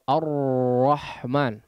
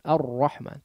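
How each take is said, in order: First: The r is trilled heavily with a strong airflow. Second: The r is trilled lightly with a slight airflow. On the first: The speaker calls it wrong. "mengalir terlalu deras suaranya, tidak demikian" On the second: The speaker calls it right. "Ada aliran suara sedikit"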